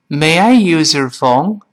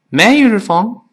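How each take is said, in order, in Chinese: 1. 这句话说得慢，而且很仔细。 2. 这句话说得快，而且很随意。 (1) "我们慢慢读是这么来说的" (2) "如果读得更快一些，生活中很随口一说，语速特别快"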